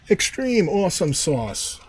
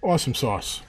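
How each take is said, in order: First: Higher, slower, drawn-out delight; extreme excitement. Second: Said in the usual way. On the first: Real, not acted. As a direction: stretch it out, thrilled.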